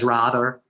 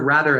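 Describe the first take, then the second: First: It is said with a New England accent. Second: It is said in an ordinary American way.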